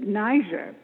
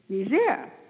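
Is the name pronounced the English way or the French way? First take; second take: English; French. First: The name is said with an English pronunciation. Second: The name is said with a French pronunciation. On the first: This is how many people say it. The speaker calls it wrong. "some people pronounce it Niger" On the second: This follows the country's French colonial history. The speaker calls it right. "it was a French colony, so the correct pronunciation is Niger"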